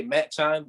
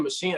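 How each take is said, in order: First: Machine mispronounced as "Matt Chine"; "Matt Chine" with a hard ch, rhyming with shine; childhood mispronunciation. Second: Said in the usual way. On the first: Shown as a demonstration. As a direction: say "Matt Chine", like "mat" plus "chine". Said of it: "instead of saying machine, I used to say". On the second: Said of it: "pronouncing words bad".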